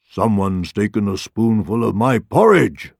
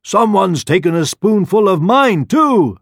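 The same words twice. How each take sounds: First: Gruff storybook Papa Bear; a restrained bear roar; father bear roar. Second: High, loud Mama Bear voice; mother bear exclaiming. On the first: Father Bear finds his porridge tasted, roaring. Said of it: "roared the father bear". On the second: Mother Bear finds her porridge tasted too, exclaiming. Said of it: "exclaimed the mother bear". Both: A narrator's reading.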